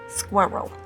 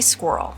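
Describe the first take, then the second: First: It is said as two syllables, New York style. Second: It is said as one syllable.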